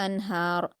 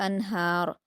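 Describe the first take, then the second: The two takes are said the same way.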